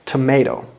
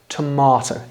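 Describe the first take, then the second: First: It is said with an American accent. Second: It is said with a British accent. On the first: "That is American English" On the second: "Anybody who speaks British English will pronounce it tomato"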